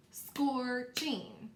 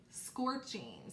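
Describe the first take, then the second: First: "Scorching" split into two drawn-out syllables; syllables clapped out. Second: Said in the usual way. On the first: Shown as a demonstration. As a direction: say "Scorching" as scor, then ching, clapping each. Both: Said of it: "So let's clap that out".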